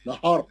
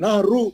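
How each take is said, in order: First: The r is heavy with no vowel after it. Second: The r is followed by a u vowel. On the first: The speaker calls it right. "रा को मोटा पढ़ना है, खाली साकिन है वो।" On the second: The speaker calls it wrong. "पेश थोड़ी पढ़ रहे"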